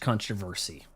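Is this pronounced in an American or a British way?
American. It is said in an American way.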